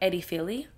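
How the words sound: The name is said with a Greek accent. The speaker calls it right. "it sounds much prettier when you put like a little accent on it"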